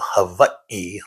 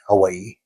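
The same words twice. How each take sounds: First: The word has a strong glottal stop inside. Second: The word has no glottal stop inside. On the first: This is the technically correct form. "with a very strong guttural stop at the e" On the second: This is a casual form that is still fine. "even local uh, Hawaiians might say Hawaii"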